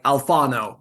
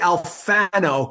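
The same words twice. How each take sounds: First: The name is said with an Italian accent. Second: The name is said with a New York accent.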